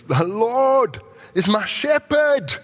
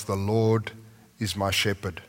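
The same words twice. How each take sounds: First: Much higher, louder, slow and ringing; exclaimed with joy. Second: Said in the usual way. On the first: Shown as a demonstration. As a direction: proclaim "The Lord is my shepherd" like a jubilant exclamation, much higher and louder. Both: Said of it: "There's an exclamation point there".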